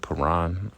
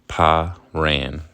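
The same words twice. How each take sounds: First: It is not said as 'pa' plus 'ran'. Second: It is said as 'pa' plus 'ran'. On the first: The speaker calls it wrong. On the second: The speaker calls it right.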